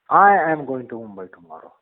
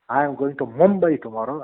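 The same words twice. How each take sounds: First: The stress falls on the word I. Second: The stress falls on the word Mumbai. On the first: The speaker personally goes, not someone else. "it is only I who is going to go and not somebody on behalf of me" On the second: The destination is this city, not another one. "when I lay stress on Mumbai"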